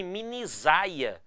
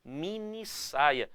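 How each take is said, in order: First: "minisaia" with the s voiced like z, mi-ni-ZAI-a; drawn out "minisaia" showing the wrong z sound. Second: Very slow "Mini saia" with a sharp hissed s, mini-SSAI-a; slow teaching "Mini saia" with a clear voiceless s; crisp s sound. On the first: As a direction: say "minisaia" with a buzzing z in the middle. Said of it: "eu não quero essa pronúncia minisaia". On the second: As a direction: spell out "Mini saia" slowly, keeping the s hissing. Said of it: "você vai dobrar o S". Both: Shown as a demonstration.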